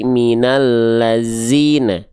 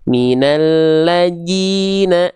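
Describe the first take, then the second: First: The consonant before -ina is a buzzing z. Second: The consonant before -ina is a j sound. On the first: "Dibacanya jangan jadi minallazina ... bukan zai" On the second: "tertukar menjadi huruf huruf jim"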